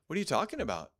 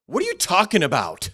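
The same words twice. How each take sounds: First: Said in the usual way. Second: Loud, higher challenge on you; angry demand. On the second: Shown as a demonstration. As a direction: snap it back angrily. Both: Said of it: "Same words".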